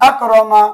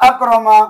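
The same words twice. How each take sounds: No difference in how they are said.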